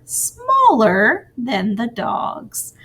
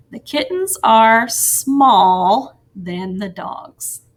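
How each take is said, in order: First: Smaller stretched out slowly and leaned on; stress on smaller. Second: Slow, careful read of a sentence that sounds off; deliberately wrong sentence. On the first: Teacher models the corrected sentence, smaller said slowly. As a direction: draw out smaller so the E R ending is clearly heard. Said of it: "so we will add that E R". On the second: Teacher reads the wrong sentence to the class, slowly. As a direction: read slowly, leaving small bare as if checking it. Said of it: "It doesn't sound right right now". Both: Shown as a demonstration.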